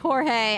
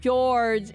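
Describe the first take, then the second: First: The name is said the Spanish way. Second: The name is said the English way. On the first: The speaker calls it right. "It's Jorge. ... wants it be Spanish?" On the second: The speaker calls it wrong. "I've been calling him George"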